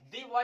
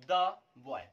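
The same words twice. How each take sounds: First: Put-on 'the boy' with THE said 'dee'; wrong 'the' as 'dee'. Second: Put-on 'the boy' with THE said 'duh', a gap between words; correct 'the' as 'duh'. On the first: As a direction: mispronounce 'the' as 'dee' before 'boy'. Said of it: "the boy नहीं बोल सकते". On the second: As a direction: say 'the' as a separate 'duh', then 'boy'. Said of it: "इसको हम बोलेंगे". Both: Shown as a demonstration.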